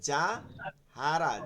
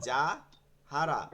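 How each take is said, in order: Both takes have the same delivery.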